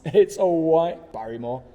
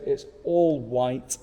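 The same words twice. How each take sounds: First: Higher, louder catchphrase impression; Barrymore catchphrase. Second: Said in the usual way. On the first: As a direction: call it out like a showman's catchphrase, with a laugh.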